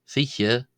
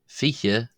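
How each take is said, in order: Both takes have the same delivery.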